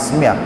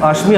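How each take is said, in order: First: It has an 's' sound and ends 'mya'. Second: It has an 'sh' sound and ends 'mi'. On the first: The speaker calls it right. "জফলা হয়েছে তাই আসমিয়া" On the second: The speaker calls it wrong. "অশ্মি হবে না"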